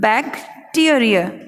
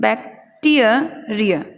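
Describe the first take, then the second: First: The 'te' syllable is strongly stressed. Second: The 'te' syllable is strongly stressed.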